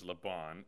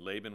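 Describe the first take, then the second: First: The name is pronounced the Hebrew way. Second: The name is pronounced the usual English way. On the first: This is how the name is said in Hebrew culture. "but it's Laban in Hebrew culture" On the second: This is how the name is commonly said in English. "Laban, we call him"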